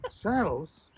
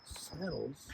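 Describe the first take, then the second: First: Saddles repeated higher and louder, falling; mock outraged repeat of saddles; louder indignant disbelief. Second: Soft, falling, baffled saddles; quiet disbelief. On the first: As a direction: echo saddles in outraged surprise. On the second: Retold or imitated. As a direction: mutter saddles as if you misheard. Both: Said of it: "And she says".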